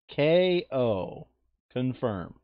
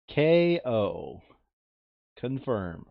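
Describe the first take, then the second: No difference in how they are said.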